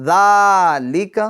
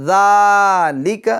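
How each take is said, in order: The two takes are said the same way.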